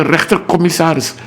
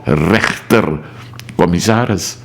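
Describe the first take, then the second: First: Said in the usual way. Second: "rechtercommissaris" drawn out, with weight on "rechter"; slow down and set "rechter" apart in "rechtercommissaris"; stress on RECHTER. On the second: Shown as a demonstration. Explaining the law to viewers, emphatic stress on "rechter" in "rechtercommissaris". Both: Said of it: "met de nadruk op".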